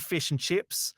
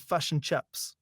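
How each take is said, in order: First: It is said in an Australian accent. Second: It is said in a New Zealand accent.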